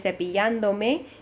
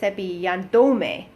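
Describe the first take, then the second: First: The stress stays on its original syllable. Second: The stress shifts away from its original syllable. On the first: The speaker calls it right. "make sure that you keep the original stress" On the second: The speaker calls it wrong. "if there are no accents on that word, I would say ... and then it doesn't sound right"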